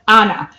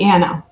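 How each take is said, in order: First: The name has a non-American pronunciation. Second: The name has an American pronunciation. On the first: This is how most other countries say it. "any other country, uh, A N N A would most probably be Anna" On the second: The speaker wants to sound American. "I wanted to sound as American as possible"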